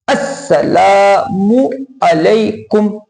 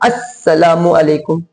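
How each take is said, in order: First: The vowel after the 'l' is drawn out long. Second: The vowel after the 'l' is short. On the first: The speaker calls it right. "लाम अलिफ मद्दा के साथ पढ़ा जाएगा" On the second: The speaker calls it wrong. "लाम पर सिर्फ ज़बर पढ़ते हैं"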